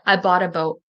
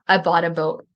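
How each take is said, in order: First: The T in bought is a quick D-like flap. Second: The T in bought is a quick D-like flap.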